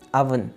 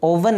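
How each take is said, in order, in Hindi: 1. पहला स्वर 'uh' जैसा सुनाई देता है। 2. पहला स्वर 'oh' जैसा सुनाई देता है। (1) "बल्कि अवन" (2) "ओवन नहीं"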